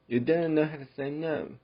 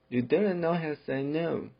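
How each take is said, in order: The two takes are said the same way.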